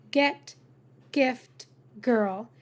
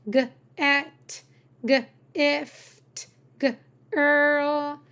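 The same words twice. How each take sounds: First: Said in the usual way. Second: "G, et, g, ift, g, earl" broken into hard g, pause, rest; sounded out. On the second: Shown as a demonstration. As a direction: split off a hard "g" before each word ending. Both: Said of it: "every word can be sounded out".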